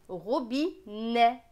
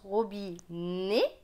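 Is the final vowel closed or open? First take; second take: open; closed. First: The final vowel is an open è sound. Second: The final vowel is a closed é sound. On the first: This is how other regions pronounce it. "dans d'autres régions, on va le prononcer robinet" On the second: This is the speaker's own regional pronunciation. "Moi, je le prononce robinet"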